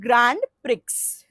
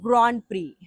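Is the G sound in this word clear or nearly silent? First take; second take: clear; nearly silent. First: The G sound is clearly pronounced. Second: The G sound is almost silent. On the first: The speaker calls it wrong. "I read it Grand Prix" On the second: The speaker calls it right. "the actual pronunciation is Grand Prix. ... G is almost silent in that"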